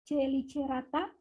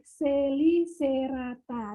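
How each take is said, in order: First: The letter c is pronounced as ch. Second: The letter c is pronounced as s. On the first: It is read exactly as written. The speaker calls it wrong. "itu kan tidak enak kedengarannya kalau dibaca secara literatnya" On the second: It is read as a scientific name. The speaker calls it right. "sebaiknya kita baca sesuai dengan ilmiahnya"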